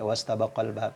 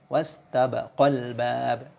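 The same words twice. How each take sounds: First: The long syllable after qaf is said flat. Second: The long syllable after qaf is pressed. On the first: The speaker calls it wrong. "Jangan jangan dibaca wastabaqal bab datar" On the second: The speaker calls it right. "kita baca penekanan di sini"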